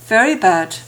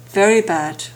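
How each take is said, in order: The two takes are said the same way.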